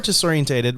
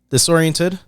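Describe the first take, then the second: First: The word ends in '-entated', with an extra syllable. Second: The word ends in '-ented', without an extra syllable. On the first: The speaker calls it wrong. "you're wrong" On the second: The speaker calls it right.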